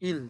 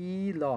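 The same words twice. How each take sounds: First: ইল said as one smooth syllable; blended word. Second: ই ল said as two separate sounds, ই then ল; split into sounds. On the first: Korean teacher to Bengali learners, blending it into ইল. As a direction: join ই and ল into a single quick ইল. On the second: Korean teacher to Bengali learners, sounding out ই ল slowly apart. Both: Shown as a demonstration. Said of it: "তাহলে উচ্চারণ হবে ই ল".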